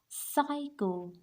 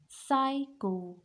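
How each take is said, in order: Both takes have the same delivery.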